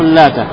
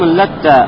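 First: The t sound is short and single. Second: The t sound is long and doubled. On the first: This is the reading of most Quran reciters. "читали с одной буквы Та, не удваивая букву Та" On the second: This is the reading of a few named reciters. "с удвоением буквы «Та»"

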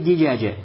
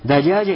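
First: The first vowel is a close 'i' sound. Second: The first vowel is an open 'a' sound. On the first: "а может писаться с касрой" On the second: "может писаться с фатхой"

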